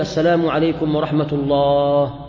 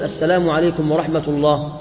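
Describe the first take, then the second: First: The voice is stretched out and prolonged. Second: The voice is kept short without stretching. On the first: The speaker calls it wrong. "يعني لا يقول" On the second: The speaker calls it right. "بل يقول ... دون أن يمد صوته به"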